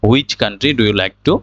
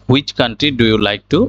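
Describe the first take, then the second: Both takes have the same delivery.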